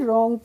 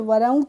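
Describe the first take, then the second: First: The word begins directly with the R sound. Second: The word begins with an audible W sound. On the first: The speaker calls it right. "डब्लू silent हो गया" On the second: The speaker calls it wrong. "वरोंग तो नहीं पढ़ेंगे"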